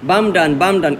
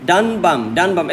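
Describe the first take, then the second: First: বাম ডান in paired, falling beats, starting on বাম; reversed two-beat rhythm. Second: ডান বাম in paired, falling beats; two-beat rhythm. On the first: Teacher swapping the order for students, বাম ডান in marching rhythm. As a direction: chant বাম ডান as if keeping step. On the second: Teacher showing metre to students, ডান বাম in marching rhythm. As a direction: chant ডান বাম as if keeping step. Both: Shown as a demonstration. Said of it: "এরকম ছন্দ মিলবে".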